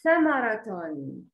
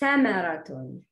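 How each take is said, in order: First: The word begins with a 'th' sound. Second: The word begins with an 's' sound. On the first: The speaker calls it right. "It's ta samaraton" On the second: The speaker calls it wrong. "it's not samaraton. Not C"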